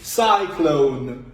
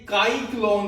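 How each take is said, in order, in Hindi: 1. इस शब्द की शुरुआत s की आवाज़ से होती है। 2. इस शब्द की शुरुआत k की आवाज़ से होती है। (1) "बल्कि सीन की आवाज आई है, तो ये है साइक्लोन" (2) "ये काई क्लोन नहीं बना, काफ की आवाज नहीं आई"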